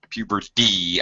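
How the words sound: The middle consonant is a soft flapped D. "I'm sure that's how I said it. That's my American accent"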